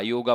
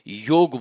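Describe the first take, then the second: First: The word ends with an added final vowel. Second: The word ends on the g sound. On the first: The speaker calls it wrong. "अक्सर लोग योगा योगा बोलते हैं" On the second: The speaker calls it right. "योग बोलना जाता है"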